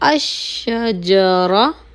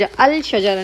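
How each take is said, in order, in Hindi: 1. ल की आवाज़ दोहरी "sh" ध्वनि में समा जाती है। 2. अल का ल साफ़ बोला जाता है। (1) "अलिफ डायरेक्टली शीन के साथ मिलेगा" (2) "नहीं होगा"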